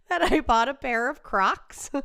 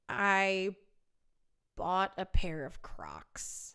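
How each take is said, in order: First: Higher, loud exasperated repeat; loud confession. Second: Slow, near-whispered admission; hushed confession. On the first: Repeating the confession after sound dropped, loud exasperation. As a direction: blurt the admission out at full voice. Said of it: "Just as I make my confession". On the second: Singer confessing to viewers about shoes, hushed confession. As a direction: confess it slowly under your breath. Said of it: "I have to make a confession". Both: Real, not acted.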